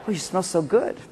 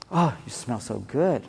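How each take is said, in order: First: Soft, laughing compliment. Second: Low, soft, slow murmur; intimate compliment. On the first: Husband to wife, soft laughing compliment. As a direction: say it through a laugh. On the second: Husband hugging wife, low soft compliment. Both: Retold or imitated. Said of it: "You give her a hug".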